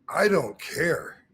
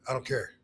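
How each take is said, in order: First: It is said with deliberate emphasis. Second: It is tossed off casually without emphasis.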